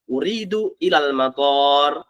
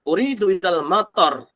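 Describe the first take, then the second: First: The last vowel of matar is long. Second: The last vowel of matar is short. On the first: The speaker wants to go to the airport. The speaker calls it right. "Aku mau ke bandara misalkan. Mator sekali lagi dengan toknya dikasih alif atau panjang" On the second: The speaker wants to go to the rain. The speaker calls it wrong. "Salah. Aku mau ke hujan"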